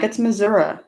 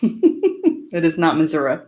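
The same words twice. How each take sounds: First: Missouri ending in "uh", like "Mizz-ur-uh"; mock the Missouri folks who say it wrong; Missouri with an "uh" ending instead of "ee"; mispronounced Missouri. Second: Missouri ending in a clear "ee", like "Mizz-ur-ee"; not Missouri, slow, the "ee" ending stressed; correct Missouri. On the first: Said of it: "There's people that are like". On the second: Shown as a demonstration. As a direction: firmly set the right way to say Missouri. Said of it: "No, it's not".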